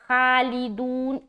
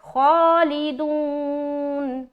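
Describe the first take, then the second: First: The first vowel is open, like 'a'. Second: The first vowel is rounded, near 'o'. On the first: The speaker calls it wrong. "खालिदून ऐसा नहीं बोलना" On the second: The speaker calls it right. "बल्कि मुंह गोल करेंगे"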